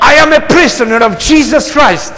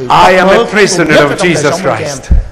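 First: The declaration is said loudly and with force. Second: The declaration is said softly, without much force. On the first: The speaker calls it right. "Let's do a little bit stronger" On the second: The speaker calls it wrong. "It doesn't sound confident"

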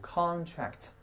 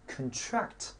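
First: The stress is on the first syllable. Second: The stress is on the second syllable. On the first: It is the noun meaning a written agreement. "它的名词读音读contract" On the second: It is the verb form of the word. "它的动词读音读contract"

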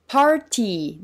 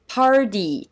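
First: The middle consonant is a clear t sound. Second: The middle consonant is a soft d sound. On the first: The speaker calls it wrong. "party ではなくて" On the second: The speaker calls it right. "アメリカ英語では…party と発音します"

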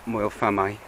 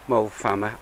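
First: The name is said with its standard pronunciation. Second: The name is said the local Liverpool way. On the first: The speaker calls it right. "as is the correct pronunciation" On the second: The speaker calls it wrong. "as we call it back in Liverpool"

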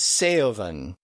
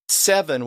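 First: The vowel is stretched into two vowel sounds. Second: The vowel is short and simple. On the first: This is how the old dialect said it. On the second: This is the modern way of saying it.

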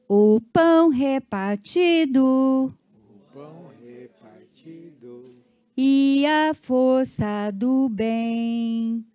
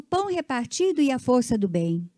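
First: It is spoken slowly, in separate pieces. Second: It is spoken quickly, in one run.

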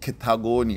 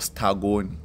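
First: The name begins with a ke sound. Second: The name begins with an s sound. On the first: This is how local people say it. The speaker calls it right. "but it's Ketagoni, yes, the most Balobedu people would pronounce it from the area" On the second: This follows the written spelling. The speaker calls it wrong. "It's written Stagoni"

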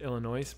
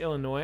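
First: The final S is sounded. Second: The final S is silent. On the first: "but that was not what I normally do" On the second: "I don't pronounce the S in Illinois"

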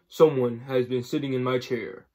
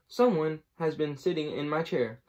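First: The voice is big and deep. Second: The voice is medium in pitch and size. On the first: "said in his great big voice" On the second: "said in her middle-sized voice"

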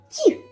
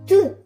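First: The consonant is soft, palatalized. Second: The consonant is hard, not palatalized. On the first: "завжди кажу м'яко" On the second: "знову твердо"

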